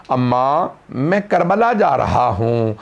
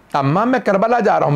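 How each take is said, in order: First: A slow, low, understated mournful call to his mother; drawn-out grieving plea, held back; slow lament call. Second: Higher, rising cry of grief; loud weeping call. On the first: The son at his mother's grave, in a slow, held-back lament. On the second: Son weeping aloud at his mother's grave, higher and crying. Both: A narrator's reading. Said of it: "बुलंद आवाज़ से रोने लगे".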